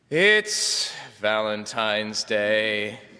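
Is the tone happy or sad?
sad. It is said in a sad, glum tone.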